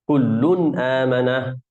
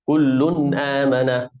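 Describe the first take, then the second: No difference in how they are said.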